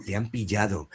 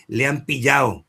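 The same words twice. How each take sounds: First: "pillado" with a clear soft d, softer; careful pronunciation. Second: "pillado" said as "pillao", the d dropped, a bit louder; sloppy pronunciation. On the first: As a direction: say every sound of "pillado", the d included. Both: Shown as a demonstration. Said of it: "tiene que pronunciar perfectamente".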